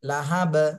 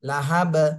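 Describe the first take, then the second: The two takes are said the same way.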